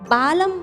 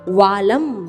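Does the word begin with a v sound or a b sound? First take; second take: b sound; v sound. First: The word begins with a b sound. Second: The word begins with a v sound. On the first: The speaker calls it wrong. "बालम नहीं है" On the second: The speaker calls it right. "व वजन का है"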